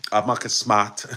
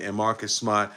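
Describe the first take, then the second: First: Marcus Smart in a Boston accent, r's dropped; playful Boston accent, Mahkus Smaht. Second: Said in the usual way. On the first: Shown as a demonstration. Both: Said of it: "my Boston accent".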